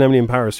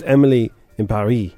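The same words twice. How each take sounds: First: Paris is said with an English pronunciation. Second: Paris is said with a French pronunciation. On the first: The speaker calls it wrong. "If you're all watching Emily in Paris, you're wrong" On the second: The speaker calls it right. "It's supposed to rhyme"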